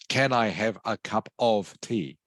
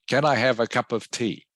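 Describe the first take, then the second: First: Every word, including 'of', is said in full form. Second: The word 'of' is reduced and the phrase flows smoothly. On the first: The speaker calls it wrong. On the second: The speaker calls it right. "I've said something like"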